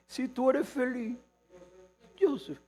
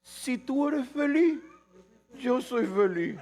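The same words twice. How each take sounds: First: Mock sweet devotion. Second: Higher, slow, syrupy imitation; mock sweet devotion. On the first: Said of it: "Eso dice". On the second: Preacher mocking what people tell loved ones, slow and syrupy. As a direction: drawl the romantic line with mock tenderness. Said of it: "Uno dice".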